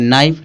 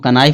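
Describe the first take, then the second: First: The word starts with an n sound. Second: The word starts with a k sound. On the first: The speaker calls it right. "तो इसको पढ़ेंगे नाइफ" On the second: The speaker calls it wrong. "इसको कनाइफ नहीं पढ़ेंगे"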